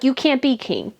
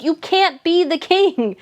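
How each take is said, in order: First: Said in the usual way. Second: Put-on higher, slow, stately old queen; lightly voiced Queen. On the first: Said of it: "Charles is like". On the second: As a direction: deliver it like a prim old monarch. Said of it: "The Queen's like".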